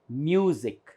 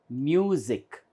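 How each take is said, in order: The two takes are said the same way.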